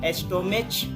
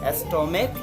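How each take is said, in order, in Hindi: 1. इस शब्द का अंत 'ch' की आवाज़ से होता है। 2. इस शब्द का अंत 'k' की आवाज़ से होता है। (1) "यहाँ पे हम एस्टोमेच नहीं बोलते हैं, यानी कि च का उच्चारण नहीं होता है" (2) "यहाँ पे आपको क का उच्चारण होता है, इसलिए इसको हम लोग एस्टोमैक बोलेंगे"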